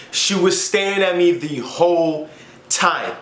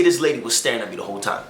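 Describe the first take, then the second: First: Slow, stretching "the whole time"; emphatic, drawn-out repeat. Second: Said in the usual way. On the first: Real, not acted. Telling how her mom stared, slow emphatic "whole time". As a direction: drag out each word, pause before "time".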